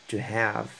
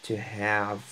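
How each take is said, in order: Both takes have the same delivery.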